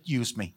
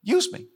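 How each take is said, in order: First: Low and soft, almost to yourself; a hushed inward plea; quiet prayer. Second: Much higher, reaching up; pleading cry. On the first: Pastor showing the church how to pray, low and hushed. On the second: Pastor showing the church how to pray, high pleading cry. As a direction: call it up to heaven. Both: Shown as a demonstration. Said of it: "Just say".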